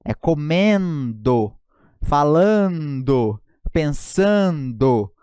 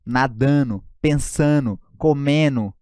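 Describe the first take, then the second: First: "comendo", "falando", "pensando" said very slowly with a full "ndo"; clear N D O ending. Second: "nadando", "pensando", "comendo" said as nadano, pensano, comeno; dropped D ending. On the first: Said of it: "e não nu no final". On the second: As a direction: swallow the "ndo" into "no" the wrong way. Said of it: "Tem gente que troca o gerúndio". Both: Shown as a demonstration.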